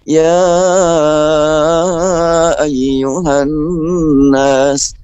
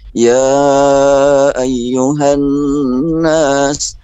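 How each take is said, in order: First: The first vowel is held very long. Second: The first vowel is held moderately long. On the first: "boleh sampai lima sampai enam" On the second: "atau boleh empat"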